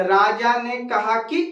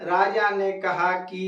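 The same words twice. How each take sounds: First: राजा ने कहा कि with a short, quick कि. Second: राजा ने कहा कि, slow, holding कि long; drawn-out "कि". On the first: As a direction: say कि fast and clipped. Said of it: "तो जल्दी से अगर बोला जाए". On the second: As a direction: linger on कि to make it long. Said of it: "देर करके बोला जाए". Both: Shown as a demonstration.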